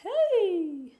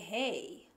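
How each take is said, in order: First: It is voiced higher, resonating in the head. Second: It is voiced low, resonating in the chest. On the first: "you will not feel it in your chest anymore" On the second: "you will feel vibration in your chest"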